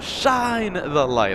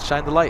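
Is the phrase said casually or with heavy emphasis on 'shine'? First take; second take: emphasis; casually. First: The phrase is said with heavy emphasis on 'shine'. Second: The phrase is said casually, with no strong emphasis. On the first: It has become a big catchphrase. "like a emphasis on shine and all that good stuff" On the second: It was an offhand remark. "I literally just said shine the light"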